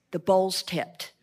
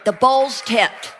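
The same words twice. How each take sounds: First: Much softer and lower, let it land; quiet awe at the bowl's tipped; hushed statement. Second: Bowl's tipped, slow and firm at normal level; emphatic restatement of the bowl's tipped. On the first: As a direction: drop to a near hush on bowl's. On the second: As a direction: lean on bowl's slowly. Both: Shown as a demonstration.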